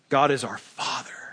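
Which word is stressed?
Father. The word Father is stressed.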